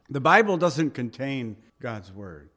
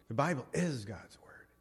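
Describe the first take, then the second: First: Said in the usual way. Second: Hushed whisper. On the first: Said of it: "I disagree with that". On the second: Shown as a demonstration. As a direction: whisper "The Bible is God's word", leaning on "is". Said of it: "Big difference".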